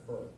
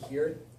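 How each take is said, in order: First: The pronoun sounds like the word her. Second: The pronoun sounds like the word here. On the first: "some pronounce it her" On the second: "Some people pronounce it here, like H E R E"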